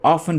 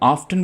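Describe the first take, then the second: First: The t sound is left out entirely. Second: The t sound is pronounced in the middle. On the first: "दोस्तों ऑफन में टी silent है।" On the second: "इसको वैसे तो ऑफ्टन भी पढ़ा जाता है"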